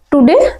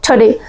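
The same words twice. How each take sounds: First: Said in the usual way. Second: टुडे with a puffed t and short weak first vowel, "thuh-DAY"; aspirated, reduced TODAY. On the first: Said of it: "टुडे नहीं बोलना है". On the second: Shown as a demonstration. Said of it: "क्या बोलना है?". (टुडे को हल्के "ठडे" जैसा बोलें)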